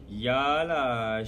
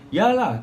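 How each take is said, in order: First: It is said in a sarcastic tone. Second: It is said in a confident tone.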